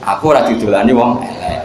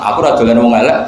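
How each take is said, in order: First: There is a stop before the last word. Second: The words run on without a stop. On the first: Ugly people don't play with me; I'm handsome. The speaker calls it right. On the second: Handsome ugly people don't play with me. The speaker calls it wrong. "Ngomong kan kacau"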